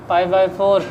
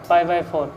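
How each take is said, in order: The two takes are said the same way.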